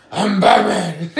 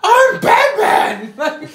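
First: Slow, sighing husky Batman line; sigh, then land the line slowly; low Batman voice. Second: Batman line, much higher and louder, dragged out slowly; gravelly Batman try. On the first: Friend retelling the parody, the final Batman take. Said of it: "he's lost his voice". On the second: Friend retelling the parody, wildly overdone Batman voice. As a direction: stretch out a ridiculous strained Batman voice. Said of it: "trying to find his voice". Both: Retold or imitated.

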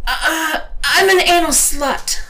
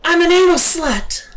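First: High, loud, hesitant start; high-pitched stammering yelp; stammered outburst. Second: High, loud, unhesitating shout; emphatic cry, pitched way up; affirmative cry. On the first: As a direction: stumble in, then blurt it loudly. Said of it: "I stammered". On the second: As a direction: cry it out with conviction. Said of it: "I cried affirmatively". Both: A narrator's reading.

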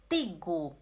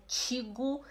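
First: "tigo" with a hard T; low "tigo", crisp T without CH; correct tigo. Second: "tigo" softened to "tchigo"; wrong tigo. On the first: Teacher correcting the mistake, hard-T "tigo". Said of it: "Não é tigo". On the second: Teacher showing the mistake, "tchigo". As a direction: say "tigo" with a CH at the start. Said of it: "é tigo". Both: Shown as a demonstration.

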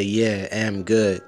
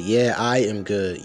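First: "I'm" said as bare "am", drawn out slowly; mock the missing pronoun in "I'm good"; slow quote with "I'm" cut to "am"; dropped "I". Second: "I am" as two separate, slow words; slow, deliberate "I am good"; full "I am". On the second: Shown as a demonstration. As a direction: correct it by spelling out "I am". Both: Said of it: "no American's gonna say".

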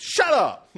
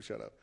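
First: Loud, high comic outburst; shouted retort. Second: Very low, hushed throwaway; quiet joking aside. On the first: Acted. Preacher replays David silencing Goliath, shouting. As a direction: yell it to cut off all argument. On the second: Pretend. Preacher admits he likes telling people this, hushed. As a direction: slip it in under the breath, joking.

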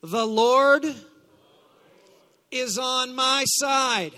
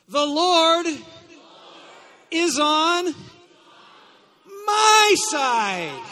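First: Loud, slow declaration; call to declare. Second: Full-force shouted proclamation, high and broken up by pauses; fervent declaration. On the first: Preacher leading congregation in repeating scripture, loud declaration. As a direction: lead the congregation with a raised voice. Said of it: "say this with me". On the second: Preacher urging congregation to mean it, fervent shout. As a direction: shout it out like you mean every word. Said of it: "like it actually means something to you". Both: Shown as a demonstration.

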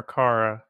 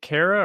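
First: "Kara" said KAR-uh; "Kara" with an open ah, KAR-uh; alternative pronunciation option. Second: "Kara" said KAIR-uh; "Kara" rhyming with Sarah, KAIR-uh; first pronunciation option. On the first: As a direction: say "Kara" with first vowel as in "car". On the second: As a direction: say "Kara" with first vowel as in "care". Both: Shown as a demonstration. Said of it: "is it Kara or Kara?".

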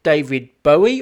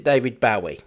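First: Bowie as BOH-ee, first syllable like "bow and arrow"; first pronunciation option. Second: Bowie as BOW-ee, first syllable rhyming with "cow"; alternative pronunciation. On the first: Host offering guest the first option, [name] said BOH-ee. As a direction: say Bowie with a long O. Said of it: "is it [name] or is it". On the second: Host offering guest the other option, [name] said BOW-ee. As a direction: say Bowie with an OW sound. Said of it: "or is it [name]". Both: Shown as a demonstration.

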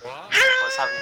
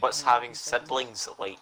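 First: Loud shout over noise; shouting to be heard. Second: Slow, deliberate repeat; slow and clear. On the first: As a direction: yell so they can hear you. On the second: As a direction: spell it out slowly for them. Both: Real, not acted. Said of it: "I can't hear you".

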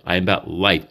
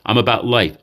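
First: Am spelled out and life given the weight; sincere, life stressed. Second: About pushed up and falling; earnest, about stressed over life. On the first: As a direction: land firmly on the word life. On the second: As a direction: lean on the word about. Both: Real, not acted.

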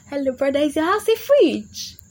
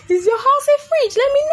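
First: Mock incredulous question. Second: Very high, loud squealed question; mock outraged squeal. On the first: Girl teasing a boy who suggests his house, mock incredulous. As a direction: challenge him, raised and stretched out. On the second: Girl taunting a boy about his house, mock outraged squeal. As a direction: squeal it at the top of your range. Repeats the jibe, far higher, louder.

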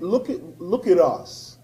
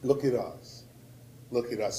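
First: Said in the usual way. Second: Lower, much softer look at us; a soft, heavy echo to the crowd; hushed repeat. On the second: Real, not acted. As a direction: let it sink in quietly. Repeated plea, dropped low.

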